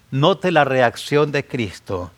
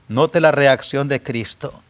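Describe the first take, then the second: No difference in how they are said.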